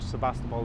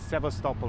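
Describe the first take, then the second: First: The name is said with a b sound. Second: The name is said with a v sound. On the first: This is the usual English form of the name. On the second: This is the local form of the name.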